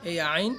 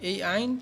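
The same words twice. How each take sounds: Both takes have the same delivery.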